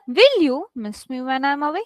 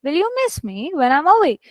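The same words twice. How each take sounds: First: Wrong reading with "will" stressed and "miss" unstressed. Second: Natural question with "miss" carrying the weight; stress on MISS. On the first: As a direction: hit "will", then run through the rest. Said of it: "this doesn't sound right". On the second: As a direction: correct reading, "miss me" lifted, "away" falling. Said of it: "This changes the emotion of what you're reading". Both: Shown as a demonstration.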